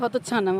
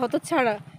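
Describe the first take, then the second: First: The last syllable has an n sound. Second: The last syllable has an r-like sound. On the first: The speaker calls it wrong. "ও বলে হতচ্ছানা, মানে ওর র উচ্চারণ হয় না" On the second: The speaker calls it right. "কথাটা হতচ্ছাড়া"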